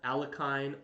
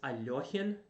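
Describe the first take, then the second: First: The name is said with an anglicized pronunciation. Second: The name is said with a Russian pronunciation. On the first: The speaker calls it wrong. "not Alekhine or Alochine, whatever" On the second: The speaker calls it right. "it's Alohian Defense"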